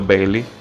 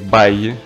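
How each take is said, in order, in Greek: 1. Το όνομα λέγεται με ήχο L. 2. Το όνομα λέγεται με ήχο Y. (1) "θα είναι λίγο κάπως να το λέω Μπέιλι" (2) "ξέρω ότι λέγεται Μπάιγι"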